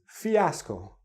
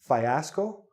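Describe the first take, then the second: First: The first syllable sounds like 'fee'. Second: The first syllable does not sound like 'fee'. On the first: The speaker calls it right. "No, it's fiasco. Again, the E, fee" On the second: The speaker calls it wrong. "you're thinking fiasco"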